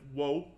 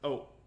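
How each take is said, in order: First: The particle starts with a w sound. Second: The particle is a plain vowel without w. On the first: The speaker calls it wrong. "instead of wo" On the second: The speaker calls it right. "you pronounce it o when it's by itself"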